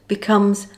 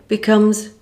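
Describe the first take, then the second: No difference in how they are said.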